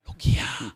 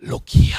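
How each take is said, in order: First: Hushed, voiceless rasp; softer echo in a cartoon-monkey accent; whispery accented monkey voice; Rafiki's accent. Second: Loud, voiceless rasp; playful cartoon-monkey character voice; Rafiki's accent. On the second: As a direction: call it out in a rough accented rasp. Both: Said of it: "in his wonderful accent".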